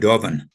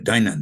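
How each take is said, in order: First: The middle consonant sounds like a v. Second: The middle consonant sounds like an n. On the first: This is the original Celtic pronunciation. "in the actual uh, Celtic, ... it's pronounced, I think, Toha De Dovan" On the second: This is a simplified everyday pronunciation. "But I pronounce it uh, Danan"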